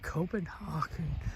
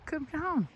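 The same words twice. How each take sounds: First: It is said with an English speaker's pronunciation. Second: It is said with a Danish speaker's pronunciation. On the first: The speaker calls it wrong. "is also pronounced differently by English speakers" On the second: The speaker calls it right. "listen to Danes how they pronounce it"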